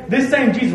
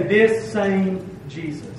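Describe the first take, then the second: First: "same" in "This same Jesus" punched higher and louder; emphasis on same. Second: "This same Jesus" said slowly, each word weighted, "This" strongest; slow, deliberate stress on "This same Jesus"; emphasis on this same Jesus. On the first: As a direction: hit the word "same" hard. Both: Shown as a demonstration. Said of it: "There's an emphasis on that word".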